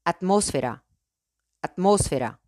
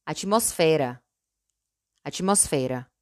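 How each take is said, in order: First: "atmósfera" in Spanish, stressed on MÓS. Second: "atmósfera" the Portuguese way, stressed on FE. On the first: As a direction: say "atmósfera" as at-MOS-fe-ra. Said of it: "En español". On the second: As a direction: say "atmósfera" as a-chee-mos-FEH-ra. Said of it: "En portugués". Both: Shown as a demonstration.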